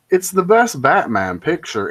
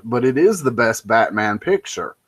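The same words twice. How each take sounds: First: "best" pitched up and emphasized; high, emphatic peak on "best"; stress on best. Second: "is" pitched up and stretched in insistence; insistent peak on "is", then falling away; stress on is. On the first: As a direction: hit the word "best" hard. Rates film, then concedes and reasserts. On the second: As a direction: lean hard on the word "is". Reasserts verdict after conceding flaws. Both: Real, not acted.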